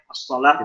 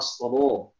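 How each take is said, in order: First: The l sound is light and thin. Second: The l sound is thick and heavy.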